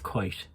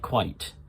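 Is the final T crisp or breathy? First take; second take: breathy; crisp. First: The final T is soft and breathy. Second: The final T is hit crisply and firmly. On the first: "But with Irish, it's quite" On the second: "we'd say quite, and we hit that T"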